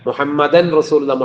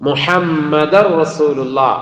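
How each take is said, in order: First: A clear n sound is heard before the r. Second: The n merges into a doubled r sound. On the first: The speaker calls it wrong. "പലരുടെയും പറച്ചിലിൽ അങ്ങനെ വരാം" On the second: The speaker calls it right. "എങ്ങനെ തന്നെ വരണം?"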